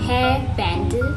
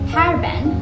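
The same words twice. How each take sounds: First: It is said with a Konglish accent. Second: It is said with an American accent.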